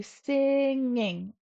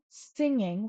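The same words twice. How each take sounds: First: "singing" stretched long on its middle NG; emphasized NG. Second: Said in the usual way. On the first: Shown as a demonstration. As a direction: draw out "singing" slowly, holding the ng. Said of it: "Really put an emphasis on that N G". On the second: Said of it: "instead of saying singing".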